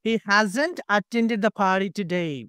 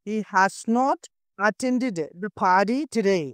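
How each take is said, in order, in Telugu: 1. 'Has not' ను ఒకే syllable గా కలిపి అంటారు. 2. 'Has not' ను రెండు పూర్తి పదాలుగా అంటారు.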